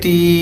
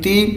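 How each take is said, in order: First: The vowel is long. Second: The vowel is short. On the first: "खड़ी ज़ेर को थोड़ा सा लंबा करते हैं" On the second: "ज़ेर को करते हैं छोटा"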